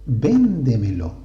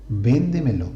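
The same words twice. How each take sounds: First: VÉNDEMELO slow, stress on VÉN; teacher spelling out Véndemelo; example word said slowly. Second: Said in the usual way. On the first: Shown as a demonstration. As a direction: draw out Véndemelo, leaning on the first syllable.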